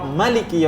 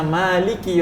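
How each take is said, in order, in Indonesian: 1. Vokal pertama dibaca pendek. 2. Vokal pertama dibaca panjang. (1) "dia hanya tiga huruf" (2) "dapat empat puluh pahala, karena ada empat huruf"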